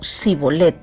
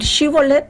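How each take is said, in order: First: The word begins with a plain s sound. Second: The word begins with a sh sound. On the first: "lo pronunciaban como Sibolet" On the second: "en lugar de, de decir Shibolet"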